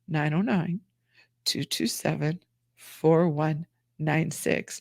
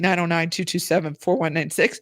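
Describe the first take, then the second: First: The number is said slowly. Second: The number is said fast.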